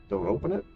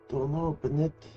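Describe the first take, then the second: First: It is read in his plain, normal voice. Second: It is read in a Godfather-style Sicilian voice.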